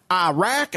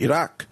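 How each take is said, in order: First: Mocking Southern drawl, Iraq as AH-RACK; higher, hammed-up Southern twang on Iraq; Lindsey Graham. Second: Iraq as ee-RAHK; native-style pronunciation. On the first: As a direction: send up a Southern politician's accent. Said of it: "people like Lindsey Graham, they're like". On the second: Shown as a demonstration. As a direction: say Iraq with ee first and an open ah. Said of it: "the way the Iranian people say".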